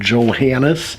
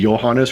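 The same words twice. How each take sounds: First: The name is said the English way. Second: The name is said the Scandinavian way. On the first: "rather than" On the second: "the Scandinavian or European way"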